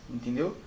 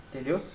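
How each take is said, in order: Both takes have the same delivery.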